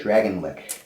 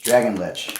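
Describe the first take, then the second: First: "lick" said with a hard k ending, like licking; mispronounced lich. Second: "lich" ends in a ch sound, rhymes with "itch"; corrected pronunciation. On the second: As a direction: say "lich" with a clear ch ending. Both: Shown as a demonstration. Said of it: "L I C H".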